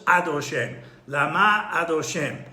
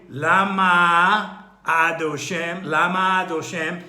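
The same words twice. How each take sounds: First: Lama with stressed MA, a break, then adoshem; pause between words. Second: Lama adoshem with the end of lama swallowing the A of adoshem; words run together. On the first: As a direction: separate Lama from adoshem so the A is heard. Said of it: "there's a pause". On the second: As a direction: blend lama adoshem into one loud, drawn-out run. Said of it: "could be swallowed up with the mem". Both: Shown as a demonstration.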